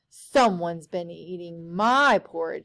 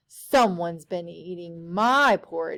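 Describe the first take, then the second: First: It is said with a weary sigh. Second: The same.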